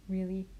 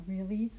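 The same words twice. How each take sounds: The two takes are said the same way.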